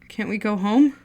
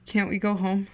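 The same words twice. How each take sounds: First: Pleading, voice rising on home; desperate repeated plea to go home; louder desperate plea. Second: Said in the usual way. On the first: Acted. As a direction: beg louder the second time. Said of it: "He pleaded".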